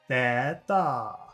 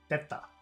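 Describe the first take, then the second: First: The first vowel is held long. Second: The first vowel is kept short. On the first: The speaker calls it wrong. "If it were long, it would be theta. But it's not" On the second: The speaker calls it right. "It's theta"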